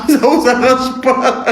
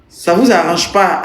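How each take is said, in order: First: Laughing. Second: Said in the usual way. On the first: Real, not acted. Laughing repeat of a viewer's phrase. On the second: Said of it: "repeats the phrase, then mocks it".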